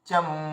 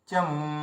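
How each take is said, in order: No difference in how they are said.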